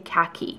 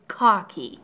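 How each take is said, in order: First: It uses the American English pronunciation. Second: It uses the pronunciation taken from Hindi. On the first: "in the US you say khaki" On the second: "it's a loan word from Hindi. It's khaki"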